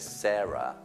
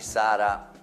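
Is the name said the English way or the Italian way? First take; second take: English; Italian. First: The name is said with English sounds. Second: The name is said with Italian sounds.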